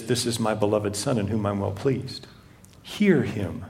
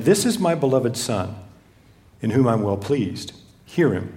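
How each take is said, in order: First: Lower, much softer voice of God from the cloud. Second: Said in the usual way. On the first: Acted. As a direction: let it come down hushed and low from above. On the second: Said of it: "a voice came out of the cloud saying".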